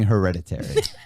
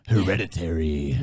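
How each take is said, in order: First: It is said in a plain, normal voice. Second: It is said in a put-on, spooky voice. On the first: The speaker calls it wrong. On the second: The speaker calls it right.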